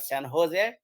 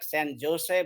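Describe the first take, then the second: First: Jose starts with an H sound. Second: Jose starts with a J sound. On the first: The speaker calls it right. "but San Jose" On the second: The speaker calls it wrong. "It is not like San Jose"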